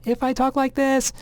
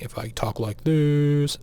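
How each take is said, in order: First: The voice is pitched high and thin. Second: The voice is pitched low and deep. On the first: "probably like three hundred times a second" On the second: "maybe at one hundred times a second"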